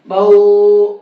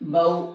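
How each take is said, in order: First: The vowel is stretched out long. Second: The vowel is kept short. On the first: The speaker calls it wrong. "बौ ऐसे नहीं करना है" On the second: The speaker calls it right. "खींचना भी नहीं है"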